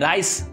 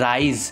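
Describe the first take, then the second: First: The word ends with an s sound. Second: The word ends with a z sound. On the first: The speaker calls it wrong. "রাইস উচ্চারণ হয় না" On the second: The speaker calls it right. "এটার উচ্চারণ হয় রাইজ"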